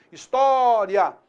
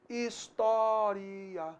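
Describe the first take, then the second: First: História with ria as one syllable; história ending in one rising diphthong. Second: História slowly and softly, ending split into ri-a; História with the ending as two syllables; hiatus pronunciation. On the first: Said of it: "aquilo que era um ditongo". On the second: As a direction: stretch História so the i and a part. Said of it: "entendido também como um hiato". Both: Shown as a demonstration.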